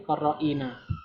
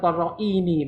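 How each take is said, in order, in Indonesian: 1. Suku kata terakhir diakhiri dengan vokal 'a'. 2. Suku kata terakhir diakhiri dengan vokal 'i'. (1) "tapi korroina" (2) "bukan korroini"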